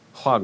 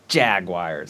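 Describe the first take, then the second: First: The word begins with a soft sound. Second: The word begins with a hard J sound. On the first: The speaker calls it right. "pronounced with a soft J" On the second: The speaker calls it wrong. "this weird, like, violent, hard J"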